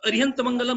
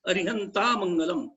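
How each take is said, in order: First: The first word ends without a final vowel. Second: The first word ends with a final 'a' vowel. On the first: The speaker calls it wrong. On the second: The speaker calls it right.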